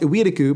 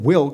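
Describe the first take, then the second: First: The name is said with Japanese sounds and syllables. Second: The name is said with English sounds. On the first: "In Japanese, it's pronounced Iwiriku" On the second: "The anime's English dub pronounces it Wilk, but I'm pretty sure it's wrong"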